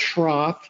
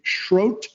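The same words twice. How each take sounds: First: The name ends with a th sound. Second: The name ends with a t sound. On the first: The speaker calls it wrong. "not pronounced Schroth" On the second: The speaker calls it right. "it's actually Schroth, which rhymes with uh, throat"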